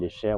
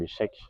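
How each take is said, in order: First: The word sounds like 'shake' with a long vowel. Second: The word sounds like 'check' with a short vowel. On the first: The speaker calls it right. "ce qu'on peut appeler" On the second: The speaker calls it wrong. "si on ne le prononce pas comme il faut"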